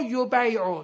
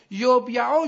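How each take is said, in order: First: یبیعو as yo-BAY-o; after vowel shift. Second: یبیعو as yob-ya-o, closed b; before vowel shift. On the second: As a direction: sound out یبیعو with the a after y. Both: Shown as a demonstration. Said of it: "تو قاعدهٔ سه".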